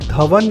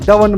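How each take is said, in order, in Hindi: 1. नाम की शुरुआत सांस वाली 'dh' ध्वनि से होती है। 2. नाम की शुरुआत सादी 'd' ध्वनि से होती है। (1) "एक धवन नहीं बोला जा रहा" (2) "उसे कभी डवन बोल रहे हो"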